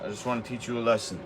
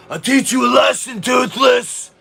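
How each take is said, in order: First: Said in the usual way. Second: High, loud battle-cry shout; sudden roaring shout. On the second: Real, not acted. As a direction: bellow the threat at the top of your lungs. Taunting a viewer in chat.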